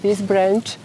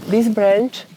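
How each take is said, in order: Both takes have the same delivery.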